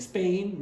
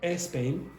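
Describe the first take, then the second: First: The word starts directly with the S sound. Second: An extra vowel is added before the S sound. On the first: The speaker calls it right. "instead of saying Spain" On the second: The speaker calls it wrong. "you will say ... e Spain"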